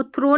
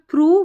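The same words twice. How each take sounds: First: थ्रो with an "oh" ending; long "o" in थ्रो, not "oo"; wrong O reading. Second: थ्रू with a long "oo" ending; louder थ्रू, ending in "oo", not "oh". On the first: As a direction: say थ्रो like "throw". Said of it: "इसको थ्रो नहीं पढ़ना". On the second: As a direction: say थ्रू like "through". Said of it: "को हम थ्रू पढ़ते". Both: Shown as a demonstration.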